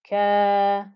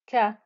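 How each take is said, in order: First: The vowel is stretched for two beats. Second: The vowel is short, one beat. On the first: The speaker calls it right. "a two count stretch on the kaf" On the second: The speaker calls it wrong. "So this is not just ka"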